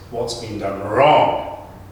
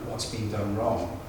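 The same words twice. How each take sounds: First: It is said with strong, dramatic emphasis. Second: It is said plainly, without special emphasis. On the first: "you hear that emphasis come through" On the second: "we could say that ordinarily"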